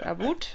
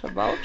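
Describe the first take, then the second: First: Exaggerated Canadian "About", said like "a-boot"; mock Canadian "About" with an oo vowel; Canadian accent. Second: Said in the usual way. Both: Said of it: "Trailer Park Boys is like".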